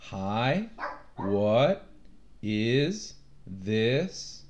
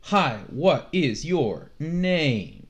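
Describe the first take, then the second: First: Each word of "Hi, what is this?" gliding upward; rising second tone. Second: Each word of "Hi, what is your name?" starting high and dropping; slow, word by word, every word of "Hi, what is your name?" falling sharply; falling fourth tone. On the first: Teacher showing the second tone, every word rising. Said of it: "it's a rising tone". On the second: Teacher showing the fourth tone, each word dropping from high. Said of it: "it starts high and it". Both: Shown as a demonstration.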